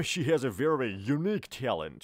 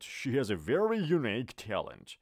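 First: She has a very unique talent said very slowly; teacher's slowed-down demo sentence; slow model sentence. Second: She has a very unique talent, slow with very stressed; teacher's second slowed-down take; slow model sentence. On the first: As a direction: spell out each word for learners. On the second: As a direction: repeat it slowly, leaning on very. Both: Shown as a demonstration.

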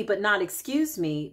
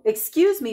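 First: Said in the usual way. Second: "excuse me" higher and louder, a sharp polite-but-firm brush-off; pointed excuse me. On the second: Shown as a demonstration. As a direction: say "excuse me" like you mean move.

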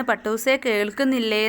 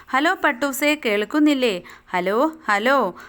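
First: Said in the usual way. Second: Put-on a little girl anxiously calling her kite. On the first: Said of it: "ആബിദക്കുട്ടി ചോദിക്കുകയാണ്". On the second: Abida calls her kite on the string phone, anxious. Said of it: "ഒരു പരിഭ്രമം കലർന്ന സ്വരം".

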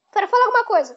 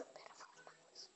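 First: Said in the usual way. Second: Barely audible voiceless whisper. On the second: Real, not acted. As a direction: whisper it close to the mic. Repeats the request into the mic. (sussurrando bem baixinho)

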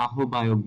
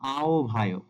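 First: "আহ্বায়ক" as aho-bayok, h and b separate; ভুল উচ্চারণ. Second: "আহ্বায়ক" as ao-bhayok; সঠিক উচ্চারণ. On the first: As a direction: say "আহ্বায়ক" with audible h, then b. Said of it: "যেটা একটি ভুল উচ্চারণ". ("আহ্বায়ক"-কে আহোবায়ক বলা) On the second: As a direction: glide a-o, then aspirated bh in "আহ্বায়ক". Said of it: "সঠিক উচ্চারণটি হবে". ("আহ্বায়ক"-কে আওভায়ক বলা) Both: Shown as a demonstration.

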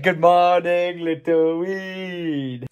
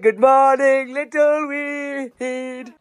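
First: Said in the usual way. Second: Higher, drawn-out sing-song, slow on little weed; playful repeat of the greeting, higher and slower. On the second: Shown as a demonstration. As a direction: stretch little weed out slowly in a singsong. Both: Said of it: "I said".

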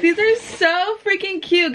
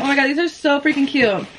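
First: Higher, slower, gushing; excited. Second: Said in the usual way. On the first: Real, not acted. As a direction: gush over the shoes. First sight of the gift.

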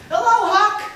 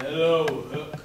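First: High, loud cheery greeting; voiced mirror greeting. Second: Low, a bit louder greeting; lightly voiced gruff greeting; deeper window voice. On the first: Tailor shop mirror greeting the boy, high and loud. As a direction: call it out bright as a shop window. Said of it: "the mirror in the tailor shop said". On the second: Butcher shop window greeting the boy, low and lightly gruff. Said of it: "The butcher shop window said".

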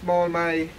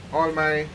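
No difference in how they are said.

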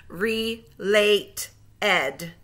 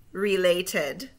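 First: Slow, split into syllables; segmented syllables. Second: Said in the usual way. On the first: Shown as a demonstration. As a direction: split it into two slow beats. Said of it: "say the syllables in segments". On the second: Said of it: "blend them all back together".

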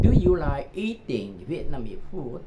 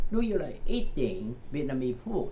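First: Slow linked demo. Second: Said in the usual way. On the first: Shown as a demonstration. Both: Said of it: "đọc liền với nhau".

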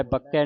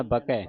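First: ਬਕੈ with a hard, doubled k, as bakkai; tightened k. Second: ਬਕੈ with a light, single k; soft k. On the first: Teacher shows what not to say, doubled k in ਬਕੈ. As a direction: press and hold the k in ਬਕੈ. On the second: Teacher models the reading for congregation, soft single k in ਬਕੈ. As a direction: say ਬਕੈ loosely, without pressing the k. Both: Shown as a demonstration. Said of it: "ਬਕੈ ਪਾਠ ਸੰਗਤ ਜੀ ਪੋਲਾ ਹੈ".

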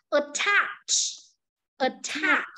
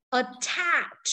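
First: Attach stressed on the second syllable, rising; word stress drill. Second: Said in the usual way. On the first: Shown as a demonstration. Teacher models the stress in Attach for the class. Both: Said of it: "đây là trọng âm của từ".

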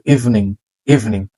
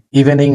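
First: ইভিনিং in two syllables, "EEV-ning"; correct pronunciation. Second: ইভিনিং in three syllables, "i-ve-ning"; mistaken pronunciation. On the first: Teacher modelling for learners, ইভিনিং as eev-ning. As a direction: drop the middle vowel of ইভিনিং. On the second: Teacher showing what to avoid, ইভিনিং as i-ve-ning. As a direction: sound the middle vowel of ইভিনিং. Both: Shown as a demonstration. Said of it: "ইভিনিং না কিন্তু".

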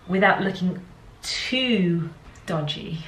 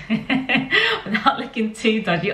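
First: Said in the usual way. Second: Giggling through the words; laughing. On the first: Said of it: "repeats phrase laughing". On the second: Real, not acted. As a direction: laugh as you say it. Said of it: "laughs while repeating".

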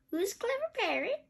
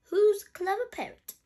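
First: High parrot mimicry; high bird voice with an upward lilt; Polly. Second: High, loud pet-praising voice; high singsong question, falling at the end; Granny Pig praising. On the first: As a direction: parrot the question back, rising at the end. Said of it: "says Polly". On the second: Acted. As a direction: coo proudly at a parrot, pitched up. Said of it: "Granny Pig says".

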